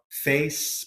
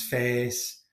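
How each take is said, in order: First: Said in the usual way. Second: "face" with a Yorkshire pure vowel; long Yorkshire monophthong in "face"; Yorkshire accent. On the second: Shown as a demonstration. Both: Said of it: "But certainly in Yorkshire".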